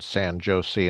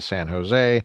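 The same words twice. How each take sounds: First: The name is said in a deliberately odd way. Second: The name is said in the usual way. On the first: It is meant as a joke. The speaker calls it wrong. "Sometimes I make little funny things with pronunciation" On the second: It is meant seriously. The speaker calls it right. "instead of"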